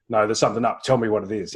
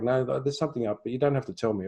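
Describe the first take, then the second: First: Firm, insistent demand to her son; pushy old self. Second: Gentle new way. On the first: Old pushy self demanding son tell her, insistent. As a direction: press him for an answer. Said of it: "previous versions of me would have said". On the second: Newer self gently telling son she'll listen, calm. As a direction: invite him gently. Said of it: "because I was like backing off". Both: Retold or imitated.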